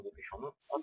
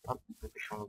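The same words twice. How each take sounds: First: High squeaky. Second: Said in the usual way. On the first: Pretend. Hurrying the player.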